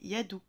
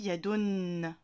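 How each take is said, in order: First: The word ends on a plain u vowel. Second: The word ends with an added n sound. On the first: "s'il n'y avait pas les deux Dhamma, on dirait Yadou" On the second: "comme il y a les deux, on dit Yadun. On rajoute le Noun"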